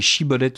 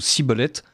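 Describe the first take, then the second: First: The word begins with a hushing 'sh' sound. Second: The word begins with a hissing 's' sound. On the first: The speaker is a friend. "vous chuintiez" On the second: The speaker is an enemy. "vous siffliez"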